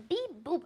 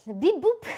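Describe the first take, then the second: First: High chirpy robot beeps; toy robot voice. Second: High beeping robot voice; toy robot voice. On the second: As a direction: beep it like a little toy robot. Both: Pretend. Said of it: "what voice do you expect me to read it with".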